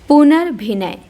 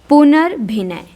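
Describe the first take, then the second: Both takes have the same delivery.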